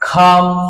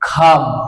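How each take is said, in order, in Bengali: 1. প্রথম ব্যঞ্জনটি জোরালো অ্যাসপিরেটেড। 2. প্রথম ব্যঞ্জনটি জোরালো অ্যাসপিরেটেড।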